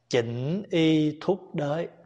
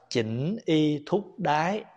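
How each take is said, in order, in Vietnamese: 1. Từ cuối cùng được phát âm với nguyên âm 'oi'. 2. Từ cuối cùng được phát âm với nguyên âm 'ai'. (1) "mình đọc chữ đới" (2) "Đúng ra đó đọc là chỉnh y thúc đái"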